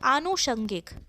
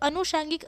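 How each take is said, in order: First: It starts with a long 'aa'. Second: It starts with a short 'a'. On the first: The speaker calls it right. "इसका शुद्ध" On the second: The speaker calls it wrong. "अशुद्ध है"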